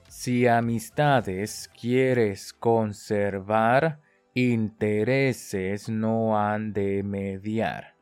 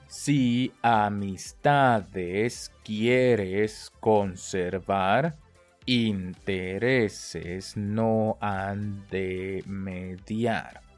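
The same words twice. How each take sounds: First: The phrase is spoken faster still. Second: The phrase is spoken a little faster. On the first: "我们再加速哦" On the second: "再快一点"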